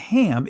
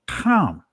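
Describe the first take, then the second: First: It starts with a plain, soft h sound. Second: It starts with a throaty, k-like kh sound. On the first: The speaker calls it wrong. "It's not Ham" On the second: The speaker calls it right. "it's Ham, you see the Ka at the beginning"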